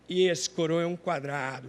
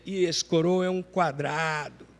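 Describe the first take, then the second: First: It is said in a plain, ordinary voice. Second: It is said with a slangy, youthful intonation.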